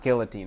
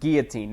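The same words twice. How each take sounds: First: The word begins with a 'gilly' sound. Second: The word does not begin with 'gilly'. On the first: The speaker calls it wrong. "not guillotine. I only say gilly if it's a gilly" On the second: The speaker calls it right. "pronounce it guillotine"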